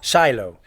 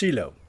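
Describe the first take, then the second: First: It is said with an American pronunciation. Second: It is said with an Israeli pronunciation. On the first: "many Americans pronounce it Shiloh" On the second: "Here in Israel, it's pronounced Shiloh"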